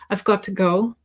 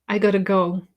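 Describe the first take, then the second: First: Each word is said clearly and separately. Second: The words are pushed together and reduced.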